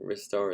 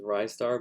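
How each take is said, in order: First: The first syllable sounds like 'wrist'. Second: The first syllable does not sound like 'wrist'. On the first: The speaker calls it right. "a star that reaches for stuff with his wrists, so I think Ristar is probably the proper pronunciation" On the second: The speaker calls it wrong. "which some people might pronounce as Ristar"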